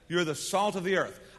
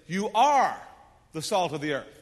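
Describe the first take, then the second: First: The word 'are' is unstressed and reduced. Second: The word 'are' carries strong stress. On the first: A simple statement about who you are. The speaker calls it wrong. "that's how you normally read that" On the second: You already are this now, not might or could be. The speaker calls it right. "I think what Jesus is trying to say is"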